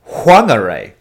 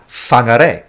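First: The word begins with a W sound. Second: The word begins with an F sound. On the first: This is the pronunciation of the local people. "they actually pronounce it Whangarei, like with a W" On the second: This is the usual pronunciation elsewhere in the country. "Māori word that has a WH is always fa, like an F sound"

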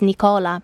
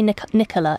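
First: The name is said in its male form. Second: The name is said in its female form. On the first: The name belongs to a man. The speaker calls it right. "it's Nicola" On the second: The name belongs to a woman. The speaker calls it wrong. "if you say Nicola, it sounds like a woman"

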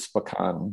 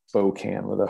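First: The O vowel is said short. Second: The O vowel is said long. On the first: This is the original name of the tribe. "the original word is Spokane" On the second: This is how residents of the city say it. "people in the city call it Spokane with a long O"

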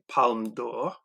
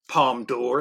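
First: It is said with a French accent. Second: It is said with an English accent.

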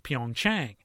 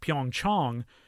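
First: The name is said the anglicized way. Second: The name is said the Korean way. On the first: The speaker calls it wrong. "pronounce it as Pyeongchang, because it sounds cleaner" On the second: The speaker calls it right. "don't pronounce it the way it's pronounced"

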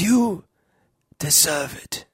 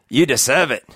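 First: It is said in a put-on old wizard voice. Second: It is said in a put-on gruff giant voice. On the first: "I could say it in a Dumbledore way" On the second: "It's Hagrid"

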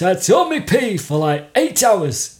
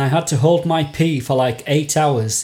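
First: It is read in a put-on Barnsley accent. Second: It is read in the speaker's ordinary accent.

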